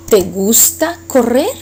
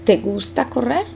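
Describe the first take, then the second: First: Correr rises at the end like a question; rising question tone. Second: "correr" lifted into a question; rising question tone. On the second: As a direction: end on a rise, asking. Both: Shown as a demonstration. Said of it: "we just change our tone of voice".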